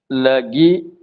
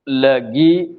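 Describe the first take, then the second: Both takes have the same delivery.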